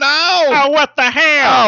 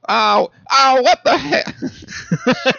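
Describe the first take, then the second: First: High, loud cartoon exclaim; high cartoon outburst; high put-on voice. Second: Very high, slow drawn out echo with a laugh; laughing high cartoon echo. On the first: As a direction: shout it in a squeaky silly voice. Joking voice game. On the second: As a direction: stretch it high like a cartoon copy. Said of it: "trying to harmonize with you".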